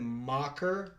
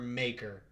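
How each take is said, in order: First: The first vowel sounds like 'ah'. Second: The first vowel sounds like 'ay'. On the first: "like M A H K E R" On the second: "like M A Y K E R?"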